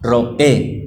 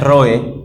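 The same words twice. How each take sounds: First: The stress falls on the second syllable. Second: The stress falls on the first syllable. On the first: The speaker calls it right. "el término es Roe... pasarlo un poquito más adelante, la tilde" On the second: The speaker calls it wrong. "el término no es Roe"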